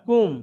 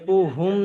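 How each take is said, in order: First: The word is said with one syllable. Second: The word is said with two syllables. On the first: The speaker calls it right. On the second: The speaker calls it wrong. "কুহুম নয়"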